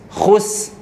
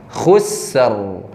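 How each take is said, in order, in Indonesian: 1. Kata ini diakhiri dengan bunyi s. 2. Kata ini diakhiri dengan bunyi r yang jelas. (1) "ataupun khus" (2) "khusr gitu"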